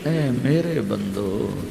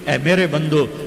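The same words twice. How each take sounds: First: It is said in a tender, loving tone. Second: It is said in a plain, unloving tone. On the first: The speaker calls it right. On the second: The speaker calls it wrong.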